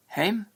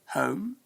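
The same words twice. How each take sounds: First: "hem" as Scots "hame", long pure E; Scottish pronunciation. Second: "home" with a gliding O vowel; English pronunciation. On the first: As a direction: say "hem" for home, Scottish-style. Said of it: "Many Scots say things differently". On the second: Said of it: "instead of". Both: Shown as a demonstration.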